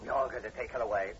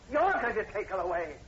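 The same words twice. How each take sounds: First: Said in the usual way. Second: Higher and louder, incredulous; furious repeat. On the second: Acted. Horton to the sergeant, furious at the plan to take Julie. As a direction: throw his words back at him in rage. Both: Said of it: "Over my dead body".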